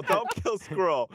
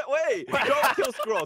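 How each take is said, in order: First: Slow, drawn-out plea. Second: High shouted plea; shouting. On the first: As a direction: stretch every word out pleading. Repeats plea slower. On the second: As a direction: yell to stop the vote. Pleading during vote. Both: Real, not acted.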